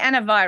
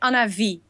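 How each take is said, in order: First: The name is said with an English pronunciation. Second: The name is said with a Dutch pronunciation. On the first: "You would say Anna Vi, right?" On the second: "it is in Dutch, you say Anna Vi"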